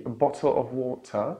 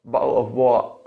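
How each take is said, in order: First: "bottle of water" with both T's crisply released; British "bottle of wotah", clear T's; British true T. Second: "bottle of what" as "bo'le of wa'uh", T's cut in the throat; overdone British glottal stops in "bottle of what". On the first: Teacher gives the first British option, true T. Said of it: "either say the true tea". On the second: Teacher shows the second British option, glottal stops. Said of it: "they would say the glottal stop". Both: Shown as a demonstration.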